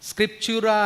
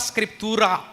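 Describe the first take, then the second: First: The middle consonant is a ch sound. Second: The middle consonant is a plain t sound. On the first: This is the English-style pronunciation. "కానీ అది English pronunciation" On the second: This is how it is said in Latin. "లాటిన్లో దాన్ని అలాగే అంటారు"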